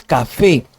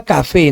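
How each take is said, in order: First: "café" with a long stressed FE; stress on last syllable. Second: "café" wrongly stressed on CA; stress on first syllable. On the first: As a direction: land firmly on FE in "café". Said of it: "es café". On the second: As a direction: hit CA and drop FE in "café". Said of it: "no es café". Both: Shown as a demonstration.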